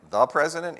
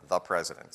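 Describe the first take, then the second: First: Rising, disbelieving echo; lightly acted amazed question; incredulous question. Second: Lower, falling deadpan answer; understated matter-of-fact reply; flat confirmation. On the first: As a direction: echo it back in shock. Retold disbelieving question to boss. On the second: Retold or imitated. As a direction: state it back plainly and firmly. Boss flatly confirms, retold.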